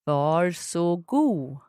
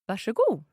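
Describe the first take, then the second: First: The word is said slowly. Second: The word is said quickly.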